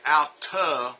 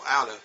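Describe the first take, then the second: First: The T sound is pronounced clearly. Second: The T sound is softened and linked. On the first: "we don't even say out to with the T's" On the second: "we go out of"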